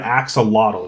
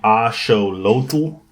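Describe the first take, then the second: First: It is said with the usual English pronunciation. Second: It is said the Aztec way, ending in tl. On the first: This is the common English form of the word. "which is the American pronunciation or the English pronunciation" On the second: This is the original form of the word. "it's supposed to be axolotl or tl"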